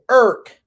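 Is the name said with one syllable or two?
one. The name is squeezed into one local-sounding syllable.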